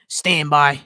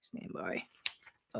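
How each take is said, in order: First: Lightly voiced Boston man's stand-by call; a hint of a Boston impression; Richie from Boston. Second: Very low, hushed mutter; barely voiced, dropped right down; under the breath. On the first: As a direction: put on a Boston character for a quick announcement. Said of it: "in my Richie from Boston voice". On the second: Real, not acted. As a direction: repeat it almost inaudibly to yourself. Muttered repeat while searching.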